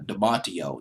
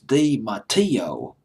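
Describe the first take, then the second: First: The name is said with English pronunciation. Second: The name is said with Italian pronunciation. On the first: "but I'll just pronounce it as" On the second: "the Italian pronunciation is"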